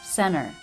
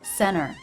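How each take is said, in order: First: The T after the N is dropped. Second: The T after the N is dropped.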